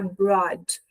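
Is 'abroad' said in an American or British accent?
American. It has an American accent, more open vowel. "a americana"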